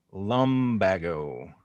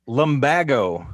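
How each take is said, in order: First: Lumbago stretched slowly, voice dropping lower; slow and drawn out. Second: Said in the usual way. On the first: Shown as a demonstration. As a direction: drag out Lumbago quietly.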